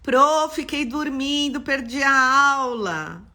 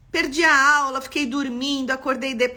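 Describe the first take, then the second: First: Imitating a sleepy student, a bit higher and louder; mock whiny student excuse. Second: Higher, louder mock whine of a late student; mock student excuse. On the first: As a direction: whine the excuse like a late student. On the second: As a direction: play the student's excuse, teasing. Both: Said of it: "vocês estão me mandando direct".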